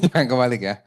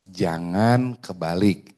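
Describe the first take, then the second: First: Quick, laughing "Jangan kebalik ya"; fast, chuckling "Jangan kebalik ya"; laughing repeat. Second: Slow, weighty "Jangan kebalik" with the stress on "Jangan"; slow, stern "Jangan kebalik" warning. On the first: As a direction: toss the warning off again with a laugh. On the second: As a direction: lean hard on "Jangan" and drag it out. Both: Shown as a demonstration.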